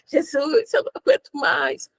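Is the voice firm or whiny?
whiny. It is said in a small, whiny voice. "Você fala"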